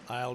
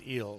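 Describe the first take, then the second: First: It sounds like the English word 'aisle'. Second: It sounds like the English word 'eel'.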